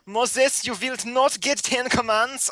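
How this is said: It is read in a put-on German accent. The speaker calls it right. "I have to read this with a German accent"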